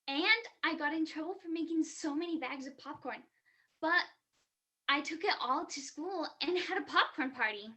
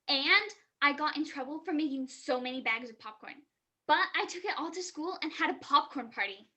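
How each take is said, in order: First: It is read in a neutral tone. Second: It is read in an angry tone.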